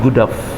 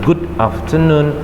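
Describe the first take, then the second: First: The words are run together in connected speech. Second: The words are said separately and carefully. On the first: The speaker calls it right. "tapi good af" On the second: The speaker calls it wrong. "Jangan ucapkan lagi dengan good afternoon"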